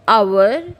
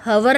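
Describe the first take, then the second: First: The word begins with a vowel sound. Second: The word begins with an h sound. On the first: The speaker calls it right. "We always use" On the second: The speaker calls it wrong. "हम हवर नहीं बोलते हैं"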